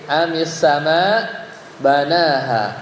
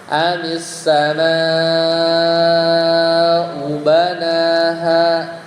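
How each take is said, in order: First: There is a stop after the word sama. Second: It flows straight on without a stop. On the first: "kalau berhenti" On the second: "Kalau lanjut"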